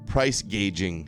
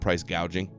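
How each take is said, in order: First: The vowel sounds like the one in 'gauge'. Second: The vowel sounds like the one in 'gouge'. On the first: This imitates someone else's mispronunciation. The speaker calls it wrong. "she calls it" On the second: This is the standard pronunciation. The speaker calls it right. "instead of price gouging"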